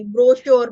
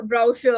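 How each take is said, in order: First: "ബ്രോഷർ" loud, with a plain o; first brochure variant. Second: "ബ്രൗഷർ" with a gliding ow vowel; second brochure variant. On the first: Teacher listing disputed forms for students, first brochure variant. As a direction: say "ബ്രോഷർ" firmly with a simple "bro". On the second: Teacher listing disputed forms for students, second brochure variant. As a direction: say "ബ്രൗഷർ" with "brow" at the start. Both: Shown as a demonstration. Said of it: "ഈ വ്യത്യാസങ്ങൾ".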